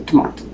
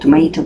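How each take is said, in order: First: It is said with a British accent. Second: It is said with an American accent.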